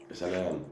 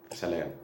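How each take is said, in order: Both takes have the same delivery.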